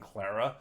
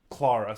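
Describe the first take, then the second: First: The first vowel is a short flat A. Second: The first vowel is a long open A. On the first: The speaker calls it wrong. "I want to say it with the Clar, Claire, with the short A sound" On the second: The speaker calls it right.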